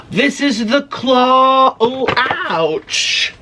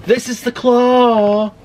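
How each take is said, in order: First: Slow, high, amazed reveal; breathless wonder at the claw; awed. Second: Slow, high amazed reveal; wide-eyed wonder; awed again. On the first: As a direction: marvel at the giant claw. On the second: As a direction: stretch out the words in awe. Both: Real, not acted.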